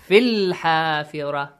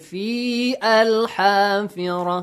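First: The two words are linked without a glottal stop. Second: The two words are separated with a glottal stop. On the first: The speaker calls it right. "Join them" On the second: The speaker calls it wrong. "You don't say"

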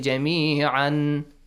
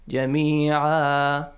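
First: The word ends with an 'an' sound. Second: The word ends with a long 'aa' vowel. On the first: The speaker calls it wrong. "When you stop, do not say جميعا" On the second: The speaker calls it right. "Fatha jami'an will be changed, to alif mad"

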